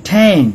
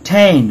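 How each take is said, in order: The two takes are said the same way.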